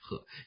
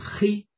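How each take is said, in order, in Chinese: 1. 这个字的韵母是 'e'。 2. 这个字的韵母是 'ei'。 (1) "唐朝真正的古汉语读音呢是应该读鹤" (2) "黑呢是我们现在的读音"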